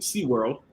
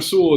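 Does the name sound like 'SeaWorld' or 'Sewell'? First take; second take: SeaWorld; Sewell. First: The name is said like 'SeaWorld'. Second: The name is said plainly as 'Sewell'. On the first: It imitates someone else's way of saying it. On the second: It is the speaker's own normal way of saying it.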